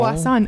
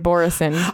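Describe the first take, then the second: First: The name is said in a non-Americanized way. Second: The name is said in an Americanized way. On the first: The speaker calls it right. "I like it way better the way you say it" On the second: The speaker calls it wrong.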